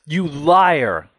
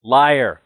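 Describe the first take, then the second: First: Loud, high, tearful accusation; furious shout. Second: Loud, furious accusation; crying out in anger. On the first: Son screaming at his father through tears, furious shout. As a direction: hurl LIAR at him with all your rage. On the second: Son accusing his father of lying, loud furious cry. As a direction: spit the word out through tears. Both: A narrator's reading. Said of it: "I cry".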